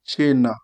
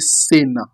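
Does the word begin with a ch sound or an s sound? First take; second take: ch sound; s sound. First: The word begins with a ch sound. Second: The word begins with an s sound. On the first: The speaker calls it right. "You are going to say what?" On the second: The speaker calls it wrong. "You will not pronounce it as an English people, somebody will quickly see it. You will not say"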